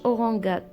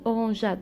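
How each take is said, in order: First: The g is pronounced as a hard g sound. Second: The g is pronounced as a soft j sound. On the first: The speaker calls it wrong. "ما تنطقاتش أورانغاد" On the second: The speaker calls it right. "تنطقات أورانجاد حيت درنا أو ورا الجي"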